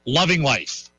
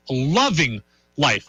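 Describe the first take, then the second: First: Said in the usual way. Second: Loving life drawn out slowly, each word stretched; slow savoring. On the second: Shown as a demonstration. Repeating it to listeners, slow and savoring.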